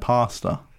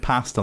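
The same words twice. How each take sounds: First: It is said in an American accent. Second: It is said in a non-American accent.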